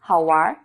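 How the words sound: The word ends with an r-like sound. "while people in North China like to say"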